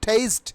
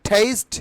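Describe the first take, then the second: Both takes have the same delivery.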